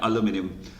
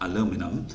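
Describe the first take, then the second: First: It is said in a British accent. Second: It is said in an American accent. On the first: "영국식 발음에 가까운 거라고" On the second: "미국 사람들 발음은 조금 달라요. 이거는 aluminum이라고 합니다"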